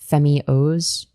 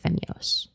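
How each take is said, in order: First: The name is said slowly, split into parts. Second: The name is said quickly as one unit. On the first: "if you break it up in terms of like Femios" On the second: "Like you say it fast"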